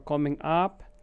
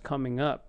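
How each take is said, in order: First: The vowel in up is a full vowel. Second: The vowel in up is a relaxed uh. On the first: The speaker calls it wrong. "or coming up" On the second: The speaker calls it right. "It's just coming up"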